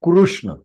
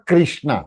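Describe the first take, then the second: First: The first syllable sounds like kru. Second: The first syllable sounds like kri. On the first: The speaker calls it right. "It should be कृष्ण" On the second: The speaker calls it wrong. "Not कृष्णा। क्री बना देते हैं instead of रू"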